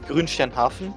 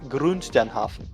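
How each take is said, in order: First: It is said with a natural German accent. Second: It is said with an English accent. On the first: The speaker calls it right. "I could just said it normally" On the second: The speaker calls it wrong. "but I said it"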